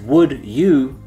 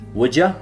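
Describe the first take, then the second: First: Each word is said fully and separately. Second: The words run together with reduced sounds. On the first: "The phrase"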